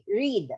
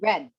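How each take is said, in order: First: The vowel is long, like 'reed'. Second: The vowel is short, like 'red'. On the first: It is the present tense. "what about if, for example, it's going to be read?" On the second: It is the past tense. "the pronunciation for that will be read"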